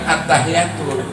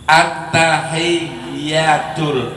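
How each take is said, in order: First: The y sound is single and short. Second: The y sound is doubled and held longer. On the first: The speaker calls it wrong. "Bukan at-tahiyyatul" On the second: The speaker calls it right. "itu ada tasdid"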